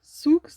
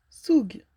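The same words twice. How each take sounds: First: "Soux" tried high and loud, ending in "ks"; puzzled pronunciation attempt. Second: "Soug" tried higher, ending in a "g"; puzzled pronunciation attempt. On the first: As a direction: sound out "Soux" as sooks, pitched up. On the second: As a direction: sound out "Soug" as soog, unsure. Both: Real, not acted. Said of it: "comment ça se prononce, ça?".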